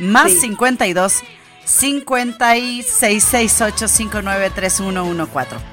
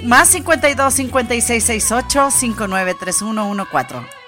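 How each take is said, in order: First: The number is said slowly. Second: The number is said fast.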